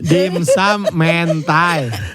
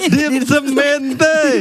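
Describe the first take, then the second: First: The vowels are varied, ending with an ai sound. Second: Every vowel is pronounced as an E sound. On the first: The speaker calls it right. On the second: The speaker calls it wrong.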